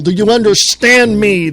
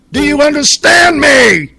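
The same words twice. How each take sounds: First: Said in the usual way. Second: Real angry yell, higher and louder; furious shout. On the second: Real, not acted. Host losing his temper at the senator, shouting. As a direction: bellow it at the listeners. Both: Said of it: "Sorry, I get pissed off".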